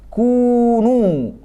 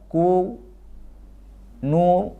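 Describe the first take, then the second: First: The two syllables flow together without a break. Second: The two syllables are split apart. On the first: The speaker calls it right. "cuma sekali kunu" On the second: The speaker calls it wrong. "nggak boleh ku nu"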